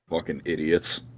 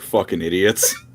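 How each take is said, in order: First: The phrase is said at a normal, quieter volume. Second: The phrase is said at a louder volume.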